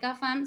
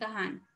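First: The middle consonant is an f sound. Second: The middle consonant is a j sound. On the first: The speaker calls it right. "ellos no dicen" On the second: The speaker calls it wrong. "no pronuncian bien la F y pronuncian es una J"

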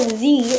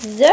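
First: The letter is said as 'zee'. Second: The letter is said as 'zed'.

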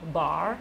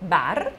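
First: The word is said with an English pronunciation. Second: The word is said with an Italian pronunciation. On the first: The speaker calls it wrong. "我不说bar" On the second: The speaker calls it right. "按照意大利文的发音，你要念它。所以就是bar"

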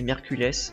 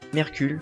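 First: The name ends with a final s sound. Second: The name ends without a final s sound. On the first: "il y a un S à la fin, je sais pas si c'est Mercules" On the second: "Moi je prononce comme ça"

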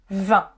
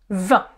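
The two takes are said the same way.

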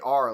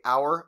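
First: It is pronounced like 'are', Ohio style. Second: It is pronounced like 'hour', two-part vowel.

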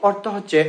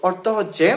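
The two takes are said the same way.

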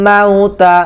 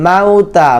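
No difference in how they are said.

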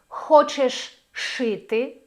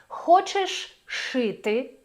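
The two takes are said the same way.

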